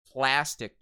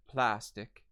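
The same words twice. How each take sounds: First: Said in the usual way. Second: PLASTIC with open British 'ah' in first syllable; British vowel. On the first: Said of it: "the American Standard". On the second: Shown as a demonstration. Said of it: "Plastic turns into plastic".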